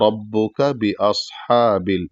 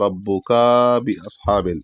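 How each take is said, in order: First: The vowel after the k is kept short. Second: The vowel after the k is drawn out long. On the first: The speaker calls it right. "इसको फौरन पढ़ना है ... इस तरीके से" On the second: The speaker calls it wrong. "इसको ऐसे खींच दिया जाता है कि ... जो कि गलत है"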